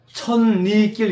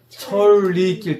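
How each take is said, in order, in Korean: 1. 첫 음절은 ㄴ 소리로 끝나요. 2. 첫 음절은 ㄹ 소리로 끝나요. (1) "이렇게 안 되고" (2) "철이 된다고요"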